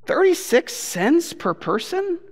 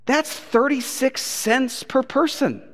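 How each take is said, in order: First: "Thirty-six cents per person?" slow and high, rising at the end; incredulous question. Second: Slowly spelled out, higher pitch; slow disbelief. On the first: Acted. Preacher challenging the crowd on the tip, incredulous question. Repeats sum as a disbelieving question. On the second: Retold or imitated. Preacher doing the math for the crowd, slow disbelief. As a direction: draw out each word of the sum.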